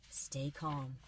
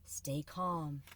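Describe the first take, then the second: No difference in how they are said.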